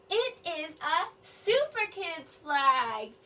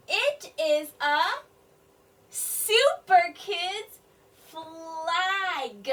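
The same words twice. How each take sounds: First: Said in the usual way. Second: Put-on slow, louder on "super kids"; slow sounding out. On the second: Shown as a demonstration. Teacher decoding the sentence for children, slow. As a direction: stretch each word out. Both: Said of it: "all of them are saying".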